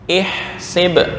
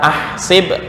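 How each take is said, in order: First: The word begins with an i vowel. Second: The word begins with an a vowel. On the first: The speaker calls it right. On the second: The speaker calls it wrong.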